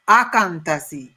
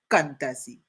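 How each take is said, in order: First: The name begins with an extra 'a' vowel. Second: The name begins directly with a 'k' sound. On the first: Other people say the name this way. "they also pronounce it as Akantasi" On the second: The speaker's own group says the name this way. "we say Kantasi. We leave out the A"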